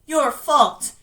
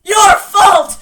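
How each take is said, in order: First: Louder, accusing jab; raised accusation. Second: High, full-force accusing shout; shouted accusation. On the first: Dead George blaming his brother Bill, loudly accusing. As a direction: lay the blame on him, louder. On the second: Dead George blaming his brother Bill, screaming accusation. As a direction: scream the blame at him. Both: Acted.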